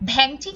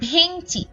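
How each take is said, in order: First: The first vowel is an open ae sound. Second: The first vowel is a close e sound. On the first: The speaker calls it wrong. "ভ্যাংচি কিন্তু বলছি না" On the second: The speaker calls it right. "বলছি ভেংচি"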